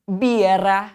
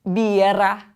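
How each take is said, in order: First: Birra with a rolled double R; BEER-rah, trill the RR in birra; teacher saying birra; model word. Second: Birra again, trilled RR; BEER-rah once more; repeat for class. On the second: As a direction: clear repetition of birra. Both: Shown as a demonstration. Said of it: "teacher models the word".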